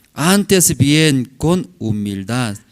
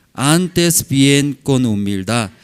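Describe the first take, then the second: The two takes are said the same way.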